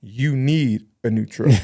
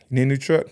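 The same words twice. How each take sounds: First: "You need a new truck." said slowly, as a hint rather than a question; pointed statement. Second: "You need a new truck?" as a real question, rising at truck; asking question. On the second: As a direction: genuine question with a lifted "truck". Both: Retold or imitated. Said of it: "let me rephrase this".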